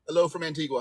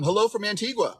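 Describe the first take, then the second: First: Badly faked Caribbean island accent; terrible Antiguan accent. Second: Said in the usual way. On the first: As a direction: attempt a light, clumsy Antiguan lilt. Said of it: "It was a terrible, terrible accent".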